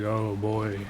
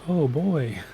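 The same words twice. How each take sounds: First: It is said quietly with low energy. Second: It is said loudly with high energy. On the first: The feeling is kept mostly hidden. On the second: The feeling is shown openly.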